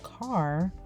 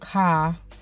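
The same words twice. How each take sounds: First: It is said the standard way, with an r. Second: It is said the Chicago way, like cah.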